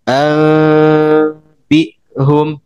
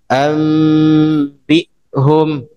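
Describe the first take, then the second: First: The lips stay slightly apart during the nasal sound. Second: The lips close fully during the nasal sound. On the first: "yang tarkul furjanya" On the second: "itu yang itlab"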